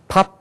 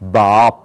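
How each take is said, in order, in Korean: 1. 한국식 발음으로 말하고 있어요. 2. 미국식 발음으로 말하고 있어요. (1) "우리는 밥 그러잖아요" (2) "미국 사람들 ... 밥 그런단 말이에요"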